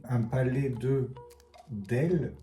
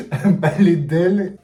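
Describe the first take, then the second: First: Said in the usual way. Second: Loud, laughing, slow repeat of the title. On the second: Real, not acted. Vlogger laughing at her own clumsy translation, loud and amused. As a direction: burst out laughing at the silly title.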